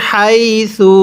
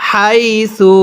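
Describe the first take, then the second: The two takes are said the same way.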